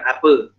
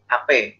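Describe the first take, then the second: First: The final vowel is pronounced as an 'a' sound. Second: The final vowel is pronounced as an 'e' sound. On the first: "bukan apa" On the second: "orang Betawi, ape lu"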